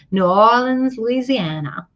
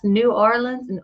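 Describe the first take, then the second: First: "New Orleans, Louisiana" in a light, botched Southern accent; lightly imitated Southern accent, running "Louisiana" together; attempted Southern accent. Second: Said in the usual way. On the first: Shown as a demonstration. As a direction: have a half-hearted go at a Southern accent. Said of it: "I can't even do a Southern accent". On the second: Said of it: "How do you say it?".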